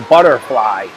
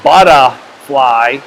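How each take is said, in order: First: The R sound is clear and strong. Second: The R sound is soft and weak. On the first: The speaker calls it right. "I'm trying to say butterfly" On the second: The speaker calls it wrong. "instead of saying butterfly"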